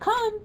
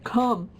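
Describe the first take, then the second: First: The pitch rises at the end. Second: The pitch falls at the end. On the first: The speaker calls it right. "use a rising inflection when you say want to come" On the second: The speaker calls it wrong. "you don't say come"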